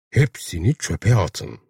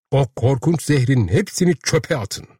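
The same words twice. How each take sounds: First: Slow, measured repeat of the command; slow echo. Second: Higher-pitched pleading command; urgent exhortation. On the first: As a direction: let each word sink in. Narrator echoes the words slowly. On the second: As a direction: urge the crowd to act. Urging crowd to discard poison. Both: A narrator's reading.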